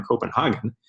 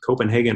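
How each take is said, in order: First: "Copenhagen" with a broad "hah" in the third syllable; "Copenhagen" as co-pen-HAH-gen; German-style Copenhagen. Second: "Copenhagen" with a long "hay" in the third syllable; "Copenhagen" as co-pen-HAY-gen; English-style Copenhagen. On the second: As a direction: say "Copenhagen" the English way, rhyming "hagen" with "Reagan". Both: Shown as a demonstration. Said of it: "whether you pronounce it Copenhagen or Copenhagen".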